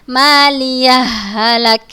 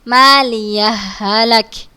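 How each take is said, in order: The two takes are said the same way.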